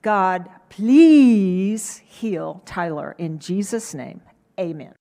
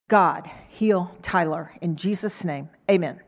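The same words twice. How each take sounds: First: Slow, deliberate pleading prayer; heartfelt slow prayer; earnest prayer. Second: A worn-out mother rattling off a prayer; perfunctory tired prayer; tired quick prayer. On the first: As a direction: draw the prayer out slowly and earnestly. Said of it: "So I prayed". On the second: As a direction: mumble it, tired after a long day. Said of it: "It had been a long day". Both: Retold or imitated.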